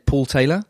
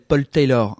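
First: The name is said in the speaker's native accent. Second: The name is said in a French accent. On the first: Listeners in Canada did not understand it. The speaker calls it wrong. "I say it in native, in my accent" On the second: Listeners in France understand it. The speaker calls it right. "I have to say my name in a French accent"

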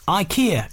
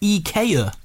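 First: The name is said the usual English way. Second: The name is said the Swedish way.

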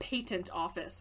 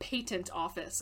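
First: It is said with a British pronunciation. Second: The same.

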